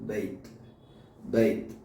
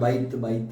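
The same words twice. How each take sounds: First: It is said with an Arabic-style pronunciation. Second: It is said with a Malayalam-style pronunciation. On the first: The speaker calls it right. "അറബിയിലേക്ക് വരുമ്പോൾ" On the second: The speaker calls it wrong. "നമ്മൾ മലയാളത്തിൽ ബൈത്ത് എന്ന് പറയുന്നത്"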